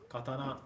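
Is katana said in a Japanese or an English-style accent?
Japanese. It is said with Japanese-style pronunciation. The speaker calls it right. "Katana, not katana"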